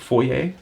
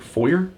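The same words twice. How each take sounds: First: It is said with a non-American pronunciation. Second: It is said with an American pronunciation.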